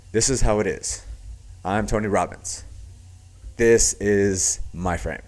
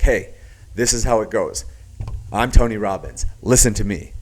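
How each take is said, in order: First: "This is how it is" measured and even; neutral inflection. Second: "Hey, this is how it goes" punched louder, each phrase falling at the end; downward inflection. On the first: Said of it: "the next level is more neutral". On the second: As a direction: drive "Listen to me" down firmly, like the one in control. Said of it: "a downward inflection, this signifies it's the person that has the frame". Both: Shown as a demonstration.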